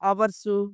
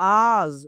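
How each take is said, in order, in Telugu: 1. పదం చివర s శబ్దం వస్తుంది. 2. పదం చివర z శబ్దం వస్తుంది. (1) "ఇలా కాదు" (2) "ఇలా చెప్పాలి"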